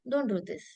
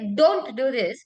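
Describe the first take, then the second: First: It is said lightly, without firm emphasis. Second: It is said firmly, with strong emphasis. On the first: The speaker calls it wrong. "I can't be like" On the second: The speaker calls it right. "I'm like, ... which means that I want the person not to do"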